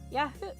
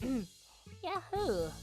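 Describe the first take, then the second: First: It is said in a plain normal voice. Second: It is said in a Valley Girl voice.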